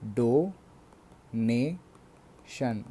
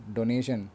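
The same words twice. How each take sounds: First: डोनेशन drawn out slowly as डो, ने, शन; three separate syllables. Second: Said in the usual way. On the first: Shown as a demonstration. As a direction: break डोनेशन into three beats with gaps. (डोनेशन को तीन हिस्सों में तोड़कर, धीरे-धीरे) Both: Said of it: "जो तीन बार तोड़कर बोले जा सके".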